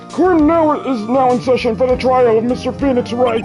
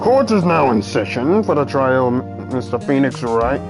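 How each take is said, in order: First: It is said in a put-on judge voice. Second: It is said in his normal voice.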